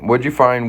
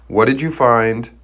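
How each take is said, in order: First: The phrase is spoken very quickly. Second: The phrase is spoken slowly and clearly.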